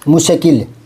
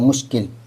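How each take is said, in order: First: The 'sh' is followed by a full vowel. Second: The 'sh' joins straight onto the 'k'. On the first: The speaker calls it wrong. "अगर पूरा करो ना तो" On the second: The speaker calls it right. "तो आधा होता है"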